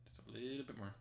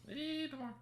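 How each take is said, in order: First: Said in the usual way. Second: Very high squeaky plea; squeaky coaxing. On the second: Pretend.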